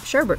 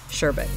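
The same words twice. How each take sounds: First: The second syllable has an r sound. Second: The second syllable has no r sound. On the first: The speaker calls it wrong. "a lot of us will pronounce it sherbet" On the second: The speaker calls it right. "the pronunciation for that is sherbet"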